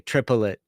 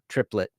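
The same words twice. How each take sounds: First: The word is said with three syllables. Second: The word is said with two syllables. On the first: "there are three syllables in the word triplet, the way we say it" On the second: "the way it's probably normally said is only two"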